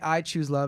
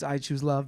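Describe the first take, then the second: First: The word "I" is stressed. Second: The word "love" is stressed. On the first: The choice holds regardless of what anyone else chooses. "if you say I choose love" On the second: Nothing else would be worth choosing. "if you emphasize love"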